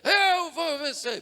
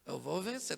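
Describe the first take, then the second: First: It is shouted loudly with high energy. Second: It is said weakly with low energy.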